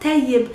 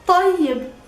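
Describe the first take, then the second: First: The first t is plain, made at the front. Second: The first t is deep, from the throat. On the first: The speaker calls it wrong. "it's not tayyib" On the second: The speaker calls it right. "It comes from the back of your throat, deep"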